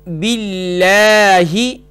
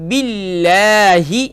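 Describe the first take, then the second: The two takes are said the same way.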